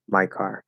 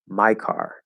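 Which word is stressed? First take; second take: car; my. First: The word car carries more stress than my. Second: The word my carries more stress than car. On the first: "without any special emphasis on my" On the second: "make my more stressed than car"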